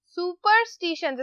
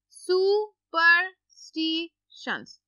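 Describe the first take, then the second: First: Said in the usual way. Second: सुपरस्टिशंस stretched out slowly syllable by syllable. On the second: Shown as a demonstration. (सुपरस्टिशंस को धीरे-धीरे syllable तोड़कर बोलें) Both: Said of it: "इस word को मैं आपके लिए break down कर देती हूँ".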